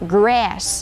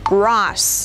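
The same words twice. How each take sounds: First: The vowel is a flat 'a' as in cat. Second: The vowel is a long open 'ah' sound. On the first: "แต่ถ้าเป็นแบบ American" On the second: "ถ้าออกเสียงแบบ British ... ก็จะพูดเป็นสระ R"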